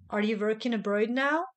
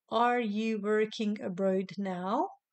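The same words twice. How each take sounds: First: Said in the usual way. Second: "Are you working abroad now?" said very slowly, every word spaced out; slow model repeat. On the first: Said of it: "Külföldön dolgozol most?". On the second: Shown as a demonstration. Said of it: "itt a külföldön elé nem kell prepozíció".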